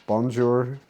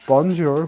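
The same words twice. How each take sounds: First: Said in the usual way. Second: Bonjour said louder, French style; French greeting. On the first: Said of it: "which means hello". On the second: Shown as a demonstration. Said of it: "in French".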